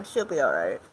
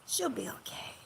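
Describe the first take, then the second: First: Said in the usual way. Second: Breathy whisper, almost no voice. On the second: Real, not acted. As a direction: whisper it reassuringly. Repeats it whispered.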